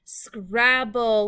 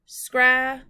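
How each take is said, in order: First: Said in the usual way. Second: "Scrabble" in two loud, separated beats; syllable by syllable. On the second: Shown as a demonstration. Teacher tapping out syllables for pupils, "Scrabble" split syllable by syllable. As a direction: break "Scrabble" in two with a clear pause between syllables. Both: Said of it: "Let's tap out the syllables".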